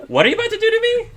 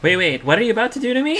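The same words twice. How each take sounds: First: Very high, fast and frantic; panicked squeak; very worried. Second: High, fast and panicked; frightened high voice; worried. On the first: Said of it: "very worried". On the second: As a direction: blurt it out in alarm. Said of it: "Energy says. She seems very, very worried". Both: Acted.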